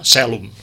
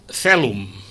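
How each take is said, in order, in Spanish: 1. Se dice con la pronunciación latina catalana. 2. Se dice con la pronunciación latina castellana. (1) "I els catalans, que no ho fem, haurien de dir celum" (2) "Els castellans diuen celum"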